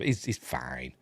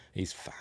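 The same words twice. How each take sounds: First: Said in the usual way. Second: Whispered reassurance. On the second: Shown as a demonstration. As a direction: breathe the words with no voice.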